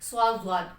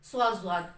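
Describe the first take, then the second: The two takes are said the same way.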